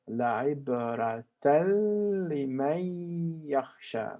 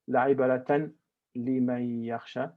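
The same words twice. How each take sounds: First: The n merges straight into the l. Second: The n is said clearly before the l. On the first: The speaker calls it right. "I actually connect the n to immediately to the next lam" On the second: The speaker calls it wrong. "I don't make izhar. I don't say"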